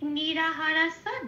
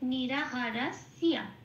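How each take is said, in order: First: The ending is a plain 'sa' sound. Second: The ending is a 'sya' sound with y. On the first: This is the Bengali way of reading it. "এটা আমি বাংলায় বললাম" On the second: This is the Sanskrit way of reading it. "ঠিক সেরকম সিয়া এটা বলতে হবে"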